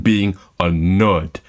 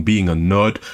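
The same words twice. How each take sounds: First: "being a nerd" drawn out slowly and low; slow, low, loaded "being a nerd"; weighted stress on nerd. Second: Said in the usual way. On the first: Shown as a demonstration. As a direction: say "being a nerd" slowly, weighting each word as the worse kind. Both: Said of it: "there is a difference between".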